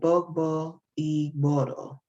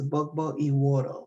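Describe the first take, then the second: First: The second word has a 'gb' sound in it. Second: The second word has a 'w' sound in it.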